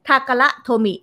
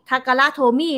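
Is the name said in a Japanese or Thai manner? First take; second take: Japanese; Thai. First: The name is said with Japanese-style pitch. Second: The name is said with Thai-style tones. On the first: The speaker calls it right. "ญี่ปุ่นต้องทาการะโทมิ" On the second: The speaker calls it wrong. "ถ้าญี่ปุ่นเนี่ยเราจะไม่อ่านว่าโทมิทาการะโทมิไม่ได้"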